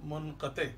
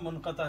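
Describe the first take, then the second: First: The word ends in 'e'. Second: The word ends in 'a'. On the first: The speaker calls it right. "सही तलफ़ुज़ है मुनक़ते" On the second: The speaker calls it wrong. "जनाब मुनक़ता नहीं"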